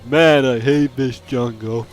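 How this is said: It is said flatly, with poor delivery.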